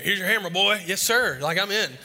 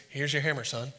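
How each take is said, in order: First: Put-on higher and louder, thrilled kid; excited. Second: Said in the usual way. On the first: Boy thrilled to get his first hammer, excited. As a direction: burst with pride at being knighted.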